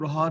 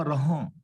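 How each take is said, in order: First: ਰਹਾ with a plain, un-nasal final aa; ਰਹਾ ending in an open oral vowel; wrong reading ਰਹਾ. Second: ਰਹਾਂ with a nasalised final aan; ਰਹਾਂ, last vowel nasal; correct reading ਰਹਾਂ. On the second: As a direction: let ਰਹਾਂ end through the nose. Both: Shown as a demonstration. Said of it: "ਇਹਨੂੰ ਰਹਾ ਨਹੀਂ ਪੜ੍ਹਨਾ".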